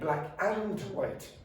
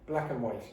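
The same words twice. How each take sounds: First: The word 'and' is fully pronounced. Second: The word 'and' is reduced to 'un'. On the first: The speaker calls it wrong. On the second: The speaker calls it right.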